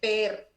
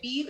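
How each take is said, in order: First: The acronym is pronounced with a Spanish-style vowel. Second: The acronym is pronounced with an English-style vowel. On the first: The speaker calls it right. "es P E R, ¿no? Realmente es así" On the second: The speaker calls it wrong. "no se dice P I R"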